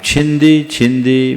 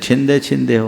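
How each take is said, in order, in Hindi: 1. हर शब्द 'ee' स्वर से खत्म होता है। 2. हर शब्द 'ay' स्वर से खत्म होता है। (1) "एक्चुअल में छिंदी और भिंदी शब्द है।" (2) "संस्कृत की टांग तोड़ने से छिंदे छिंदे हो गया"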